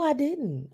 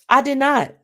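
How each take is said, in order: First: It is said gently and politely. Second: It is said flatly and bluntly. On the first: "You could say it politely and with grace" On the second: "Don't lie"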